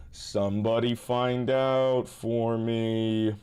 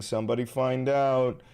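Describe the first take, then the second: First: Slow, stretched-out plea to chat; drawn out. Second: Said in the usual way. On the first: Shown as a demonstration. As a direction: drag every word out slowly.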